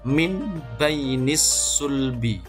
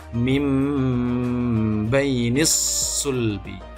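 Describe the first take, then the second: First: The first word ends with an n sound. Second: The first word ends with a nasal m sound.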